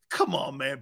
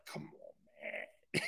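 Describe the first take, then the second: First: Said in the usual way. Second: Whispered, fading scoff; whispered come on man. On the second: Real, not acted. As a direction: scoff it barely aloud. Host scoffs at quarterback quote.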